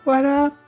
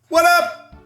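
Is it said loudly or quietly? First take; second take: quietly; loudly. First: It is said more quietly. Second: It is said loudly.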